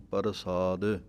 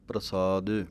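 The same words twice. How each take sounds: First: A vowel separates the 'p' from the 'r'. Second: The 'p' and 'r' form a tight cluster. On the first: The speaker calls it wrong. "ਕਈ ਵਾਰੀ ਰਾਰਾ ਪੂਰਾ ਲਾ ਦਿੰਦੇ ਹਾਂ" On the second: The speaker calls it right. "ਪੈਰ ਦੇ ਵਿੱਚ ਰਾਰਾ ਹੈ"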